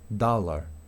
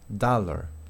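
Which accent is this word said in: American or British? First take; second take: American; American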